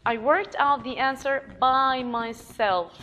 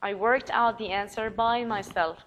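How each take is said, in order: First: Slow, loud, proud "myself"; slow proud emphasis; emphatic by myself. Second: Said in the usual way. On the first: Shown as a demonstration. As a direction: stress that no one helped. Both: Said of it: "you are emphasizing".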